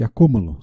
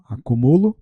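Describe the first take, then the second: First: Acúmulo stressed on the cú. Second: Acumulo stressed on the mu. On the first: Teacher giving the noun, acúmulo stressed on CÚ. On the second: Teacher contrasting verb and noun, Acumulo stressed on MU. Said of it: "o acento ele pode mudar o significado". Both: Shown as a demonstration.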